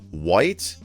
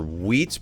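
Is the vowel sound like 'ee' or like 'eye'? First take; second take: eye; ee. First: The vowel sounds like 'eye', as in white. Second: The vowel sounds like 'ee', as in wheat.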